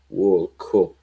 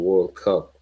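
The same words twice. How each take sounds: First: WORLD CUP with an Irish "coop" vowel; Irish accent. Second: Said in the usual way. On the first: Shown as a demonstration. Recalling Roy Keane's exit, mock Irish accent.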